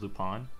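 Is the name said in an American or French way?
French. The name is said the French way. "the French... way pronunciation is Lupin"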